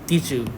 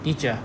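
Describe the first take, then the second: First: The words are said separately, with a clear d. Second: The d and y merge into a 'j' sound.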